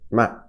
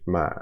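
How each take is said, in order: First: The pitch falls sharply from high to low. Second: The pitch stays low in the voice. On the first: "four is falling, so ma" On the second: "low is uh, kind of, it's a low pitch"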